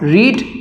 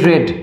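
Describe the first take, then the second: First: The vowel is long, as in 'reed'. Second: The vowel is short, as in 'red'. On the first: It is the present tense form. "রিড উচ্চারণ করলে" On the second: It is the past participle form. "রেড pronunciation হলেও স্পেলিংটা কিন্তু same থাকে"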